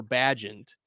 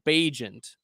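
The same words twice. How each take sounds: First: Bagent said as BADGE-ent; short-A pronunciation. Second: Bagent said as BAY-jent; long-A pronunciation. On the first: Offering the other way to say the quarterback's name, Bagent as BADGE-ent. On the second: Offering one way to say the quarterback's name, Bagent as BAY-jent. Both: Shown as a demonstration. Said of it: "however you pronounce it".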